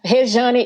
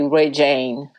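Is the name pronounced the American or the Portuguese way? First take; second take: Portuguese; American. First: The name is pronounced with Portuguese sounds. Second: The name is pronounced with American English sounds. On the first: The speaker calls it right. "Rejane is the right pronunciation. It's in Portuguese" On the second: The speaker calls it wrong. "American people, they always say Rejane"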